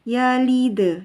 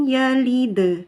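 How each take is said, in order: No difference in how they are said.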